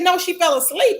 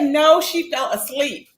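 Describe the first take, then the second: First: Said in the usual way. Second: Slowed-down mock quote, each word drawn out; slow emphatic repeat. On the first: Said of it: "And Kimmy said". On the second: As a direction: repeat it slowly to drive it home. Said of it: "Kimmy said".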